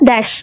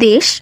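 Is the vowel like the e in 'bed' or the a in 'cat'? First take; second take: a in cat; e in bed. First: The vowel sounds like the a in cat. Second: The vowel sounds like the e in bed. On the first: This is the Bangali dialect pronunciation. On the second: This is the standard pronunciation.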